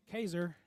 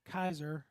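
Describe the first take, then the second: First: Kaiser said as KAY-zer; first vowel of Kaiser like "day"; KAY-zer pronunciation. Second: Kaiser said as KY-zer; first vowel of Kaiser like "eye"; KY-zer pronunciation. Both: Shown as a demonstration. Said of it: "I'm gonna pronounce it Kaiser".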